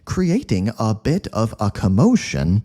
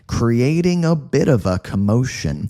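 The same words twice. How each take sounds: First: Each word is said separately and distinctly. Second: The words blur together into one smooth stream. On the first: The speaker calls it wrong. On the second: The speaker calls it right.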